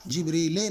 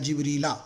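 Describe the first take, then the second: First: The word ends in an e vowel. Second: The word ends in an a vowel. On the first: The speaker calls it wrong. "जिब्रीले नहीं हो सकता कभी भी" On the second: The speaker calls it right. "या तो पेश आएगा या तो ज़बर आएगा"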